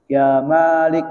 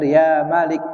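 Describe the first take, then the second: First: "Malik" with the first vowel drawn out wrongly; wrong long vowel. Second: "Malik" with a short first vowel; correct short vowel. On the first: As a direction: stretch the "Ma" in "Malik" too long. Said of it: "itu salah". ("Malik" dengan "Ma" dibaca panjang, keliru) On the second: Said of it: "Tapi yang benar". ("Malik" dengan "Ma" dibaca pendek) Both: Shown as a demonstration.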